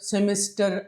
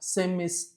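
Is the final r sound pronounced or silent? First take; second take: pronounced; silent. First: The final r sound is clearly pronounced. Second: The word ends without any r sound. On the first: The speaker calls it wrong. "అలా కాదు" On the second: The speaker calls it right. "ఈ మాదిరిగా చూసుకోవాలి"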